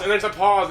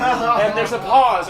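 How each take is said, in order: First: Said in the usual way. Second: Slow, loud, laughing through it. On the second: Real, not acted. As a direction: drag it out while cracking up.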